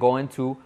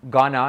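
First: It is said in the full form going to. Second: It is reduced to the short form gonna. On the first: "en vez de going to" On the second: "Gonna, en vez de going to"

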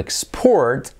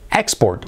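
First: The stress is on the second syllable. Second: The stress is on the first syllable. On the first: It is used as a verb. "Como verbo" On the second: It is used as a noun.

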